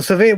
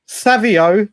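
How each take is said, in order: First: "Savio" with a weak first syllable, suh-VEE; other name variant. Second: "Savio" with the first syllable stressed, SAV-ee-oh; name variant Savio. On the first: Streamer offering the other version of a player's name, "Savio" as suh-VEE. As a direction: say "Savio" as suh-VEE, stress moved off the start. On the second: Streamer puzzling over a player's name, "Savio" pronounced SAV-ee-oh. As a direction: say "Savio" with an open "sav" at the start. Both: Shown as a demonstration. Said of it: "his name is Savino? But I see".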